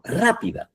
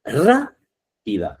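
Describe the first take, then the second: First: "Rápida" with RÁ pitched high and quick; sharp high stress on "Rápida". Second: "rápida" drawn out slowly, stress on RÁ; slow teaching emphasis on "rápida". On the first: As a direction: pop the first syllable of "Rápida" up high. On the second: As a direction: stretch out "rápida" to show the stressed syllable RÁ. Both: Shown as a demonstration. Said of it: "Fijaros esta".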